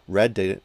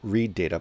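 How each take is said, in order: First: Read is said with a short vowel, like red. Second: Read is said with a long vowel, like reed. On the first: The data has already been read. The speaker calls it right. "the read in the past, like the verb tense in the past" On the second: An instruction to read the data. The speaker calls it wrong. "not read data"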